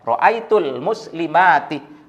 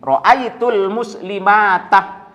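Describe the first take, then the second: First: The last word ends with an 'i' vowel. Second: The last word ends with an 'a' vowel. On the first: The speaker calls it right. "nasabnya ditandai dengan kasroh" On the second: The speaker calls it wrong. "tidak boleh dibaca ini"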